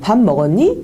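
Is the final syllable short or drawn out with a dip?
short. The ending rises plainly without a drawn-out dip.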